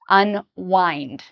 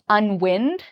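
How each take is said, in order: First: The 'wind' part rhymes with 'kind'. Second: The 'wind' part rhymes with 'pinned'. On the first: The speaker calls it right. "but the pronunciation is wind, unwind" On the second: The speaker calls it wrong. "many students pronounce this as unwind"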